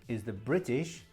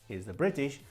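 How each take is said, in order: No difference in how they are said.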